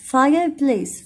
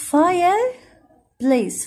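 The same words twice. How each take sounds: First: Said in the usual way. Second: Fireplace stretched very slowly, pitched higher; teacher stretching Fireplace slowly so pupils hear each part; slow drawn-out model. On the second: Shown as a demonstration. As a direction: draw out Fireplace for the class to copy. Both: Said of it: "teacher models, then repeats".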